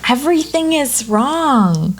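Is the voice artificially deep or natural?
natural. The voice is natural, without any changer effect. "And this is my real voice"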